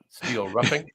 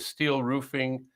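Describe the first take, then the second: First: The first syllable of roofing sounds like rough. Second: The first syllable of roofing sounds like proof. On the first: The speaker calls it right. "It's roughing, right?" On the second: The speaker calls it wrong. "Oh, I say that wrong"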